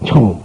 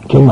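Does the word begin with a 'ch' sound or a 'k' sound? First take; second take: ch; k. First: The word begins with a 'ch' sound. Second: The word begins with a 'k' sound. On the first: This is the Chinese reading. "그걸 저 사람들은 청" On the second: This is the Korean reading. "경 아니고"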